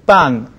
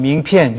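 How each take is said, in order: First: The second syllable sounds like ban. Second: The second syllable sounds like pian. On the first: The speaker calls it wrong. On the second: The speaker calls it right.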